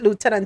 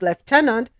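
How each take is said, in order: First: It is said the American way. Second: It is said the Jamaican way.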